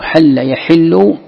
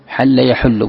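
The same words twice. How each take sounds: First: "يحل" as yaḥillu, drawn out slowly; kasra on ḥā’. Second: "يحل" as yaḥullu, said slowly; damma on ḥā’. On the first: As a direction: put an i after the ح in "يحل". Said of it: "بالكسر أي يجب". ("يحل" بكسر الحاء) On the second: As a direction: put a u after the ح in "يحل". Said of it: "بالضم". ("يحل" بضم الحاء) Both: Shown as a demonstration.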